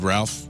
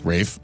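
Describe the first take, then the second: First: The name is said with an L, like Ralph. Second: The name is said without L, rhyming with safe. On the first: The speaker calls it wrong. "I've often ridiculed Ralph. I'm sorry" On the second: The speaker calls it right. "some sort of weird English pronunciation"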